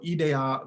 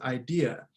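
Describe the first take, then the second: First: It is said with the Greek pronunciation. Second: It is said with the English pronunciation. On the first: "the Greek word ideia" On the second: "the English word"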